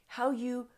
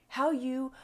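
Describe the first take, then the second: The two takes are said the same way.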